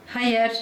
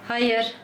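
The two takes are said the same way.

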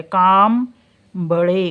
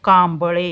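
First: कांबळे stretched very slowly so the m sound is heard; teacher sounding out कांबळे slowly. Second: Said in the usual way. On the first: Shown as a demonstration. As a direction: draw out कांबळे for the class. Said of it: "मचा उच्चार आहे म्हणून इथं यम आलं". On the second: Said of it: "इथे मचा उच्चार आहे".

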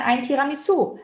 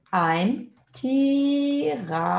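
First: Said in the usual way. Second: Slow, drawn-out "ein Tiramisu", syllable by syllable; modelo pausado. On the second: Shown as a demonstration. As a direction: model "ein Tiramisu" slowly for learners, stretching each vowel. Teacher models the phrase slowly. ("ein Tiramisu" devagar, com sílabas alongadas)

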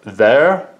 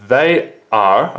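First: THEY'RE run together as one word; THEY'RE as a single stressed word; contracted THEY'RE. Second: THEY ARE as two separate words; uncontracted THEY ARE, each word distinct; full form THEY ARE. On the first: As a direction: merge "they are" into one word, THEY'RE. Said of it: "it becomes one word". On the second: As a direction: sound ARE out fully after THEY. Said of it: "this is short for are". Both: Shown as a demonstration.

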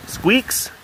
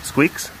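First: Much higher coaxing call; calling a pet. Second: Said in the usual way. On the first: Real, not acted. Calling the pet by name, high and coaxing. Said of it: "calls the animal a second time". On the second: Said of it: "first call of the name".

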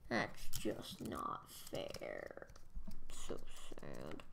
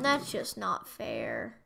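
First: Slow, whispered, much lower self-pity; hammed-up breathy sulk; mock sad whisper. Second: Said in the usual way. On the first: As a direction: whine it under your breath. Repeats it in a whisper.

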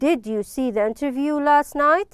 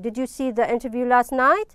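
First: Rising question tune on night; question intonation. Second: Night rises at the end, a little flatter; a calmer repeat with the question lift on night; question intonation. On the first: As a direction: read it as a real question, voice lifting at the end. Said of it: "This is the first question". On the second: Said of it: "Here we have the first question". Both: Shown as a demonstration.

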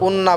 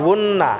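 First: উন্না begun on a bare vowel; missing waw. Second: উন্না begun with a w, as wunna, n hummed; clear waw onset. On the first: Teacher showing the mistake, উন্না without its w. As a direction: say উন্না with no w at the start. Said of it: "উন্না বললে হবে না". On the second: Teacher modelling correct উন্না, clear w and nasal hold. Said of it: "ওয়াও ভালোভাবে উচ্চারণ করব". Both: Shown as a demonstration.

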